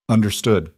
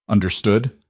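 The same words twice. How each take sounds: First: "Understood." with a falling end; firm confirmation. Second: "Understood?" with a rising end; questioning check. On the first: Woman agreeing to his rules, answering with a fall. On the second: Man laying down rules to her, asking with a rise. Giving rules, asks for confirmation. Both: A narrator's reading.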